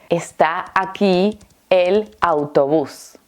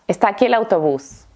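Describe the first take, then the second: First: It is said slowly, with the words kept separate. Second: It is said fast, with the words run together. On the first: "la respuesta es" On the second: "Lo voy a decir muy rápido"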